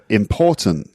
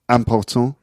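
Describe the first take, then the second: First: The stress is on the second syllable. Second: The stress is on the last syllable. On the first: The speaker calls it right. "in English, the stress is on the second syllable" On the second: The speaker calls it wrong. "that would be"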